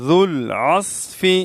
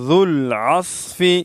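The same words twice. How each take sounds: First: It has a soft dh and an emphatic s. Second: It has a soft dh and an emphatic s.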